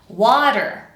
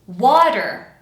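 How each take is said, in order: First: The middle consonant is a quick, light flap. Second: The middle consonant is a quick, light flap.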